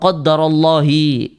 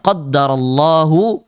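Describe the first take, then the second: First: The word Allah ends with an i vowel. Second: The word Allah ends with a u vowel. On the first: The speaker calls it wrong. "Jangan dicampur-campur" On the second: The speaker calls it right. "Itu lafaz Allahnya dibaca marfu', dibaca dhammah"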